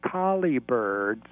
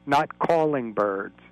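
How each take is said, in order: First: Slow, collie said as COL-ee; collie said carefully. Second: Slow, calling said as CALL-ing; calling contrasted. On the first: Caller correcting the carol lyric, slow careful collie. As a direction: spell out collie, slowly and clearly. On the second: Caller correcting the carol lyric, slow contrast on calling. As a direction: set calling against collie, slowly. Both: Shown as a demonstration.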